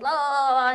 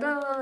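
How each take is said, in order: First: Higher, drawn-out mock Chinese babble; mock Chinese chatter. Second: Higher, drawn-out mock Italian babble; mock Italian chatter. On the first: Grandmother answering the Italian man next door, mock Chinese. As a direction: imitate Chinese as one long "Oh". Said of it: "in Chinese". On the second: Old Italian neighbour talking over the fence, mock Italian. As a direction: imitate Italian as one long "Oh". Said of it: "in Italian".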